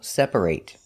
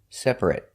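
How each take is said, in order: First: The final syllable sounds like 'ate'. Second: The final syllable sounds like 'it'. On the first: The word is used as a verb. "If it's a verb, it's pronounced ate" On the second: The word is used as an adjective. "If it's not a verb, an adjective, for example, it's pronounced it"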